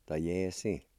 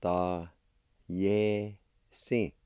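First: Said in the usual way. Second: Slow, each syllable held apart; teacher's careful syllable demo. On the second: Shown as a demonstration. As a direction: sound out "Ta, ye, si" with long pauses. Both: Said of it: "It's pronounced like this".

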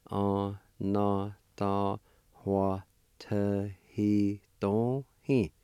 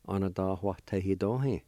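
First: Anatahuatahidohe drawn out very slowly, syllable by syllable; teacher slowing Anatahuatahidohe for beginners; slow, broken into syllables. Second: Said in the usual way. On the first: Shown as a demonstration. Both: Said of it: "it's pronounced like this".

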